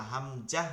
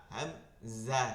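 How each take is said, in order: First: "হামজাহ" with a hard j in place of z; mispronounced "হামজাহ", j instead of buzzing z; wrong j sound. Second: "হামজা" with a buzzing z, not j; slow "হামজা" with a clear z in the second syllable; correct z sound. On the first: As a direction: say "হামজাহ" as hamjah, with jim. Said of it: "এরকম জা পড়া যাবে না". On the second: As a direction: say "হামজা" as hamza, slowly. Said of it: "জিম না". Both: Shown as a demonstration.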